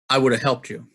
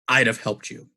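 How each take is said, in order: First: 'Would have' is reduced to 'woulda'. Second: 'I would have' is reduced to 'I'da'. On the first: "The first pattern" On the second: "The second pattern, which you'll probably notice is my preferred pattern"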